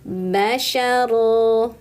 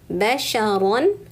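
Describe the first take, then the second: First: The word ends with a lengthened vowel. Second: The word ends with an n sound.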